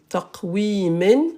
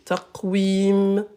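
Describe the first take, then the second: First: The word ends with a final -in syllable. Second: The word ends on m with no vowel. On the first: The reading continues without a stop. The speaker calls it wrong. "vous voyez le double" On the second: The reader stops at the end of the verse. The speaker calls it right. "on s'arrête, on va pas dire min"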